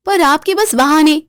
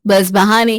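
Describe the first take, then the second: First: बहाने lifted high and sneering; scornful first jab; mocking jab. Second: बस बहाने dropped low and flat; dismissive echo. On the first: Kaveri mocks excuses. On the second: Acted. Repeat of the jab.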